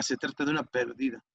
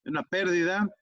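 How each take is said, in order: First: Pérdida stressed on DI, as perdida; per-DI-da, middle syllable stressed. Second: Pérdida stressed on PÉR; PÉR-di-da, first syllable stressed. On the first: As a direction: say pérdida with the weight on the second syllable. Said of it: "No es lo mismo". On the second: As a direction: put the weight on the start of pérdida. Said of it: "tampoco lo mismo decir". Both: Shown as a demonstration.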